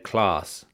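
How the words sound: It is said in a London way.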